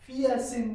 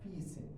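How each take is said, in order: First: The first part is drawn out as two vowels. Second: The first part is one short 'fee' sound. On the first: The speaker calls it wrong. "फिया सिन नहीं पढ़ना" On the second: The speaker calls it right. "फी सिन पढ़ना है"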